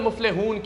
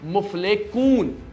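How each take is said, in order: First: The middle consonant is a soft breathy h. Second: The middle consonant is a harsh k-like sound. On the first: The speaker calls it right. "की जगह" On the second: The speaker calls it wrong. "गलत पढ़ रहे हैं"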